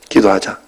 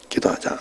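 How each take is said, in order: First: Said in the usual way. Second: Much softer, trailing away; soft fading repeat. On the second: Retold or imitated. Pastor repeating his invitation to pray to his wife, very softly. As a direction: echo the words very softly, letting them fade.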